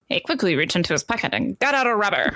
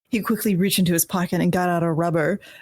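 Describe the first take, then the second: First: It is read in a put-on transatlantic accent. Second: It is read in the speaker's ordinary accent.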